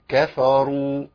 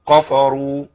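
First: The kaf and fa sound moderately light, not extreme. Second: The kaf and fa sound strongly thick and heavy. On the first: The speaker calls it right. "الصح إيه؟" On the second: The speaker calls it wrong. "وفي ناس بتضخم قوي وتتخن الكاف والفاء"

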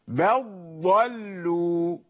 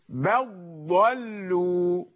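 The two takes are said the same way.

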